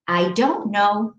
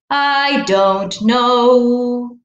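First: Said in the usual way. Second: Slow sung "I don't know". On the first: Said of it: "This is just telling a story". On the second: Shown as a demonstration. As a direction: sing "I don't know" slowly as a little tune. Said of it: "How about we sing the answer".

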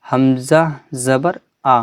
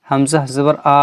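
First: আ cut short, no drawn-out tail; short final vowel. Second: Final আ stretched long; wrongly drawn-out vowel. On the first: Teacher shows students how to read it, short final vowel. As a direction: say the last আ in Hamza জবর আ quickly, without stretching. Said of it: "আমরা টান দেবো না". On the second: Teacher shows how not to read it, drawn-out final vowel. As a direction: drag out the last আ in Hamza জবর আ. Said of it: "কিন্তু এরকম পড়বো না". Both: Shown as a demonstration.

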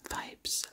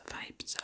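Both takes have the same delivery.

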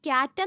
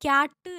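First: ക്യാറ്റ് said like English cat, no y glide; wrong pronunciation. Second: ക്യാറ്റ് said as kyat with a y glide after k; correct pronunciation. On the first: Teacher shows students the wrong way, cat said plainly. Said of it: "ഇത് ക്യാറ്റ് എന്നല്ല". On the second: Teacher shows students the right way, kyat with y glide. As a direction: give ക്യാറ്റ് its kya sound, firmly. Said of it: "ക്യാറ്റ് എന്നാണ്". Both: Shown as a demonstration.

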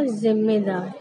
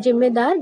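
First: जिम्मेदार as "zimmedaar", buzzing z; z sound in जिम्मेदार. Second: जिम्मेदार mispronounced as "jimmedaar"; j sound in जिम्मेदार. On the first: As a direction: start जिम्मेदार on a z. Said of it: "सही उच्चारण करेंगे". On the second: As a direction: imitate people starting जिम्मेदार on a j. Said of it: "गलत उच्चारण हो जाएगा". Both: Shown as a demonstration.

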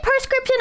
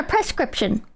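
First: Prescription opening on "per"; says "per-scription". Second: Prescription opening on "press"; says "press-cription". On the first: Streamer polling chat, first option per-scription. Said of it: "do you say prescription or". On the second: Streamer polling chat, second option press-cription. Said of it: "prescription or prescription". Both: Shown as a demonstration.

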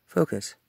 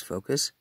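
First: A touch louder and sharper on Focus; firmer self-command. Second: Said in the usual way. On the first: Real, not acted. Pulling himself together while talking to his dad, firmer. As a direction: snap yourself back on track.

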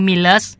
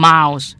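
First: "Millers" sounded out from its letters, short i; misreading by spelling. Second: "mouse" as the name Miles, long i vowel; correct English pronunciation. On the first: Teacher showing how translators misread the name, spelled-out pronunciation. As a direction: read "Millers" as spelled, the mistaken way. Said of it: "ไม่ใช่ M I L E S Millers". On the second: Teacher correcting how the name is read, English pronunciation. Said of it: "แต่อ่านว่า mouse". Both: Shown as a demonstration.

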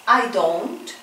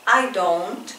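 The two takes are said the same way.

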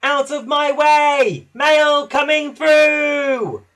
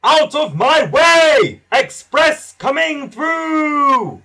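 First: Much higher, louder, slow imitating shout; little engine bellowing like the big express; copying Gordon's slow booming yell; shout as loud as he can. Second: Much higher, louder, slow bellowing shout; booming shout. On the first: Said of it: "He peeped as loud as he could". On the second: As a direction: clear the track with a big slow yell. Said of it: "A voice shouted". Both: A narrator's reading.

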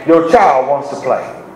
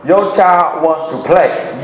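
First: Put-on slow, "child" hit hardest, falling tune; stress on child. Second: Slow, with "your" leaned on and falling; stress on your. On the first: Preacher repeating the line, "child" weighted. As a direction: punch "child" in "Your child wants to play.". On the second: Preacher stressing whose child, "your" weighted. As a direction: lean on "your child wants to play.". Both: Shown as a demonstration.

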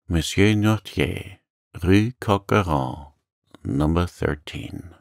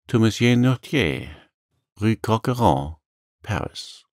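First: Slow, stunned repeating; understated dazed murmur. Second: Put-on higher young man's reply; lightly voiced helpful young sailor; innocent answer. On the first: Acted. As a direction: read it out slowly, half to yourself. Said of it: "murmured he". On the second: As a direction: give the address openly, unsuspecting. Dante innocently answers the deputy's question.

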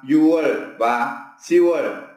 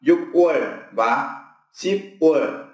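First: Yual and Siwal with the consonant dropped; đọc đúng Yual và Siwal; correct Korean reading. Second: Slow, spelled-out Yukwal and Sipwal with k and p sounded; đọc sai từng chữ Yukwal và Sipwal; wrong literal reading. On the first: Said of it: "mình đọc là". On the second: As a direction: read Yukwal, Sipwal letter by letter, slowly. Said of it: "chứ không đọc là". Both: Shown as a demonstration.

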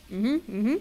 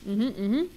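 No difference in how they are said.

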